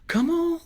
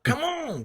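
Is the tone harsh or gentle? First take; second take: gentle; harsh. First: It is said gently and encouragingly. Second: It is yelled harshly.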